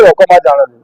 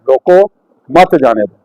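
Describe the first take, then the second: First: "रोको मत" run together, then "जाने दो"; pause after मत. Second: "रोको", a clear stop, then "मत जाने दो" as one phrase; pause after रोको. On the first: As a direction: join "मत" to "रोको" and break before "जाने दो". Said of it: "मत के बाद लगा". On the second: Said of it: "तुसी अगर रोको तो बाद लगाओगे". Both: Shown as a demonstration.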